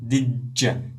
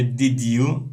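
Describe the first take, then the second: First: The two words are run together into one. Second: The two words are said separately and carefully. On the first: The speaker calls it right. "say what did you" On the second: The speaker calls it wrong. "don't say did you"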